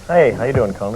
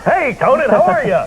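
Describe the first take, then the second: First: The greeting is said flatly, with low energy. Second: The greeting is said with lots of energy.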